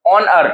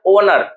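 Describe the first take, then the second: First: ऑनर with an open "aw" first vowel; vowel contrast. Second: Said in the usual way. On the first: Shown as a demonstration. Teacher checking the word with students, ऑनर with open first vowel. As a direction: open up the start of ऑनर, not "oh". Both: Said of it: "ओनर कहते हैं ना".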